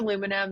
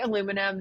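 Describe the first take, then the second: First: It is said with an American pronunciation. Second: It is said with an American pronunciation.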